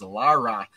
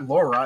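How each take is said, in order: First: The name is said like 'Lara'. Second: The name is said like 'Laura'. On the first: The speaker calls it right. "it's Lara" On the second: The speaker calls it wrong. "but it's not Laura"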